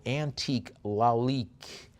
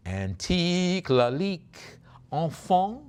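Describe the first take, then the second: First: Said in the usual way. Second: Slow, high, stretched French flourish; showy French accent. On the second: Pretend. Auctioneer presenting a Lalique box, showy French accent. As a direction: relish the French name, drawing it out.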